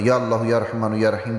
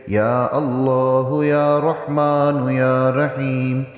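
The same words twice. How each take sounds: First: The words are said quickly, without lengthened vowels. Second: The words are said slowly, with long drawn vowels. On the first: The speaker calls it wrong. "जैसे आम हम पढ़ते हैं ऐसे नहीं पढ़ना" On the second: The speaker calls it right. "थोड़ा इनको खींचना आपने ज़रूर है"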